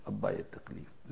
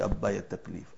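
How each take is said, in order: First: "ابا یہ تکلیف" breathed out unvoiced, much softer; faint whisper. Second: Said in the usual way. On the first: Frightened daughter whispering to her father at the pit. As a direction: let the plea fade to a whisper.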